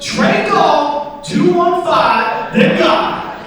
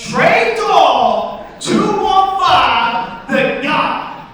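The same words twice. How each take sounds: First: Loud, high, drawn-out announcement; acted shout, stretched and pitched up; mugger calling out. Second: Even more drawn-out holler, almost sung; high, very slow acted shout for someone who missed it; emphatic repeat. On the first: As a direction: holler each part slowly. Mugger calls out his Venmo name. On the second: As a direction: stretch every word out long and loud. Mugger repeats it after "Excuse me?.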